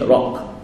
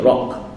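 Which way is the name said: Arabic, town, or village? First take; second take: town; town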